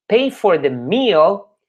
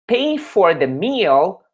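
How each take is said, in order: Both takes have the same delivery.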